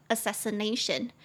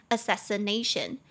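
The two takes are said the same way.

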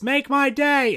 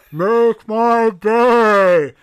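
First: Quick, high-pitched shout from the crowd; imitated heckler yell. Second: Chanted, huge, high, long-drawn shout; chanted, bellow it slowly like a whole audience at once; imitated crowd chant. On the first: Retelling somebody in the audience at the convention, high imitated yell. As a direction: call it out like a lone heckler. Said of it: "somebody in the audience yells". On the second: Chanted, retelling everyone at the convention joining in, long-drawn imitated roar. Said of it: "as everyone goes".

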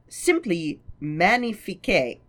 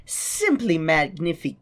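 First: Magnifique said the French way, mah-nee-FEEK; French pronunciation. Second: Magnific- said the English way, cut off before the end; anglicized try. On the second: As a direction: start magnific- like English magnificent, then break off. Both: Shown as a demonstration.

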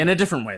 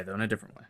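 First: Said in the usual way. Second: Laughing. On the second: Real, not acted. Repeat dissolving into laughter.

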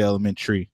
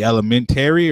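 First: Elementary ending in "chree"; elementary squeezed to "elemen-tree"; A dropped. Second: Elementary ending in "TAIR-ee"; elementary with the A pronounced, "-tary"; A fully sounded. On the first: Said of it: "or do you say elementary". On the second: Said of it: "But there's an A in there". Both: Shown as a demonstration.

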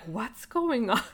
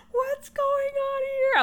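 First: Said in the usual way. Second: High, slow, squeaky bewildered question; freaking out. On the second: Retold or imitated. Staring at comments on the phone, squeaky bewildered. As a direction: stretch it out, squeaking in disbelief. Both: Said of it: "I was freaking out".

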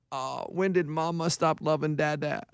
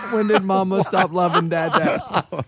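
First: Put-on low, soft drunken mumble, much softer; drunk husband whine. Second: Slow, half-laughing repeat; laughing through it. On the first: Drunk Ray whining to his wife. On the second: Retold or imitated. Retelling Ray's drunk whine to his wife, laughing and slow. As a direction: break into laughter while quoting him.

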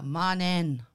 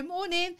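First: "Morning." said low, louder, falling; low firm greeting. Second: Greeting "Morning." pitched high and chirpy; high sing-song greeting. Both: Retold or imitated. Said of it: "Like that".

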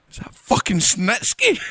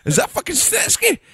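First: Disbelief. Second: Sung, belt the name as a sing-song call; sung shout. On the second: Mocking the crowd at the show, a sung chant. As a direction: sing out Snitsky much higher, as a chant. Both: Retold or imitated. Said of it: "and I'm going".

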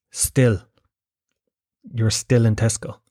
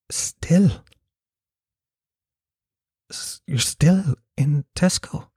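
First: Said in the usual way. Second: Hushed, slow incredulous question; breathy mock concern, rising in disbelief. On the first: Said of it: "she was looking at me". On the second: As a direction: imitate her stunned disbelief, half-whispered and drawn out. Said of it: "clouded over with just sort of concern mixed with disbelief".

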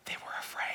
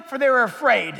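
First: Barely audible, fearful whisper; dramatic whispered scripture reading; hushed whisper. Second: Loud preacher's shout, falling at the end; full-force end of a shouted verse; shouted proclamation. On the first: Hushed end of dramatic verse reading. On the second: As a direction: proclaim it forcefully, bringing the pitch down to close. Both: Shown as a demonstration.

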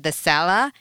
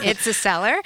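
First: "cellar" with the final r dropped, like "sella"; grandma's accent. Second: "cellar" with a clearly sounded final r; correcting pronunciation. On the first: Mother retelling grandma's word, "cellar" as r-less "sella". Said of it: "And speaking of accents". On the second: Mother correcting her kid, "cellar" with its r sounded. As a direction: correct it to "cellar", r fully pronounced. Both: Retold or imitated.

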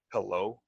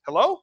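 First: Low, deep "Hello"; deepest voice. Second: High, louder rising "Hello?"; higher pitch. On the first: Man's first word to a prospect, deep-voiced. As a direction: sink the "Hello" down low, trying to sound cool. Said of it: "I got the deepest voice here". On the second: Man capturing a prospect's attention by phone, high-pitched. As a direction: lift the "Hello" way up into a question. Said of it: "Higher pitch, high octave". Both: Shown as a demonstration.

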